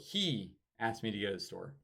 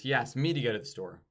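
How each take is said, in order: First: The word 'me' is not stressed. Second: The word 'me' is stressed.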